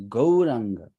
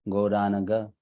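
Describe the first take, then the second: First: The n and g join directly: three syllables. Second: An extra vowel splits n and g: four syllables. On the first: The speaker calls it right. "It is Gauranga" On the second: The speaker calls it wrong. "It's not Gauranaga"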